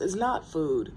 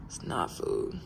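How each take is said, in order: First: Said in the usual way. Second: Breathy unvoiced whisper, much lower. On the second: Shown as a demonstration. Muttering to herself about the mess, whispered. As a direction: whisper it to yourself. Repeats line, second take whispered.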